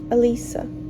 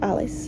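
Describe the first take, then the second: First: The name is said with three syllables. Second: The name is said with two syllables. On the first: "you pronounce it Alisa" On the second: "It's more beautiful than Alice"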